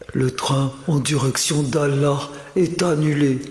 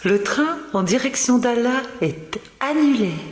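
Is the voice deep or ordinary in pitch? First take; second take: deep; ordinary. First: The voice is deliberately deep and low. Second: The voice is at an ordinary pitch.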